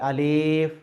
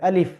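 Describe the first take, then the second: First: It is pronounced the Urdu way. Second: It is pronounced the Arabic way, without lengthening. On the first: The speaker calls it wrong. "এটা এই উচ্চারণটা ভুল। এটা হলো আহ উর্দু উচ্চারণ।" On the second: The speaker calls it right. "সঠিক যদি আমি আরবি উচ্চারণ করতে যাই"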